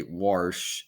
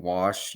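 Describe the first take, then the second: First: "warsh" with an R added before the sh; Midland-style "warsh", R clearly sounded; Midland R in wash. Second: Said in the usual way. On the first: Shown as a demonstration. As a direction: put an R into "warsh". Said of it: "you say warsh in the Midland". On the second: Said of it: "instead of saying wash".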